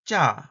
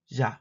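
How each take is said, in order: First: The first consonant is tense and tight. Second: The first consonant is plain and lax. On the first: "Palatal stop affricate tense" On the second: "Palatal stop affricate plain"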